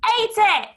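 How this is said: It is shouted loudly. "Shall we shout it?"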